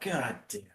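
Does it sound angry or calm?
calm. It is said calmly and quietly.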